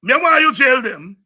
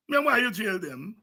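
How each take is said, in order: First: Higher and louder, demanding; loud challenge. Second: Said in the usual way. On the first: Real, not acted. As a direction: fire the question at the crowd. Speaker repeats line, first loud.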